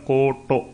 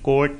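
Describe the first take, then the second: First: The word ends with a short 'u' vowel. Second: The word ends with a short 'i' vowel. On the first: "ਟਹਿਕੇ ਨੂੰ ਔਂਕੜ ਹੈ ਤਾਂ ਕੋਟ, ਇੱਦਾਂ ਕੋਈ ਨਹੀਂ ਪਾਠ ਕਰਦਾ" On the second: "ਇਹ ਹੁਸ਼ਿਆਰੀ ਨਹੀਂ ਬੋਲੀ ਜਾਂਦੀ, ਕੋਈ ਵੀ ਪਾਠ ਨਹੀਂ ਕਰਦਾ"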